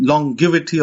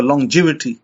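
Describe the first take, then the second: First: "longevity" with a hard g, as in give; hard-g pronunciation. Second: "longevity" with a soft g, like j; soft-g pronunciation. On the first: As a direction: say "longevity" as long-GIV-ity. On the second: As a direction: say "longevity" as lon-JEV-ity. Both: Shown as a demonstration. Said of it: "whichever way you pronounce it".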